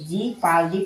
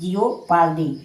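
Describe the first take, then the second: First: The first syllable has no extra o vowel. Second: The first syllable is followed by an o vowel. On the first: The speaker calls it right. "इसे जी पाल्दी पढ़ेंगे" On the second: The speaker calls it wrong. "ना कि जियो पाल्दी"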